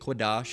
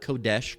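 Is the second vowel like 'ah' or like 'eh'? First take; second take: ah; eh. First: The second vowel sounds like 'ah'. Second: The second vowel sounds like 'eh'. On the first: The speaker calls it right. "you're pronouncing it the correct way in the Paleo Hebrew" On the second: The speaker calls it wrong. "not Kodesh"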